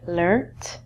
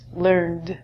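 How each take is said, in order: First: The word ends with a T sound. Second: The word ends with a D sound. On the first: This is the British form. "British English, we say learnt" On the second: This is the American form. "American English is learned. This is going to end in a D sound"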